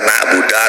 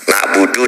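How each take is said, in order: First: The word ends with an a vowel. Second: The word ends with an u vowel. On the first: The speaker calls it wrong. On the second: The speaker calls it right.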